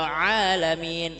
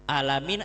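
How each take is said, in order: First: It starts with a throaty ain sound. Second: It starts with a plain a vowel. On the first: It means the worlds, the universe. The speaker calls it right. "Kalau alamin semesta alam" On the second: It means pain or sickness. The speaker calls it wrong. "Alamin artinya sakit kalau pakai a"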